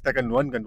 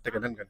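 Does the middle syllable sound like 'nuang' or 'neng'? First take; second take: nuang; neng. First: The middle syllable sounds like 'nuang'. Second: The middle syllable sounds like 'neng'. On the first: The speaker calls it right. "it's Tegenuangan waterfall" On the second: The speaker calls it wrong. "not Tegenengan"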